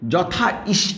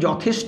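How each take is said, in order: First: The two parts are said separately, unjoined. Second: The parts are merged into one relaxed word. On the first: The speaker calls it wrong. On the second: The speaker calls it right.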